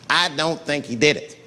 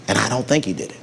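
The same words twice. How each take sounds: First: I said with weight, the rest plain; stress on I. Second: Said in the usual way. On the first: Shown as a demonstration. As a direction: lean on I as the lone believer. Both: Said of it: "I'm not gonna say".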